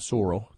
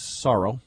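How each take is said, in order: First: It is said in a put-on Canadian accent. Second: It is said in the speaker's ordinary accent.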